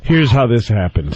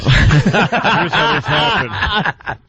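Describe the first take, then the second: First: Said in the usual way. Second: Slow, higher, laughing through it; can't get the words out for laughing. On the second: Real, not acted. Host starting the story, laughing slowly.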